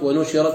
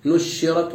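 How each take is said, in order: First: ونشرت as the contrasting reading; other of two readings. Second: نشرت shown slowly as a contrasted reading; one of two readings. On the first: Teacher contrasting light and doubled shin, careful second reading ونشرت. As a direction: set ونشرت against the first take. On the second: Teacher contrasting light and doubled shin, slow careful نشرت. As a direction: sound out نشرت slowly for comparison. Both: Shown as a demonstration. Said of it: "بالتخفيف والتشديد".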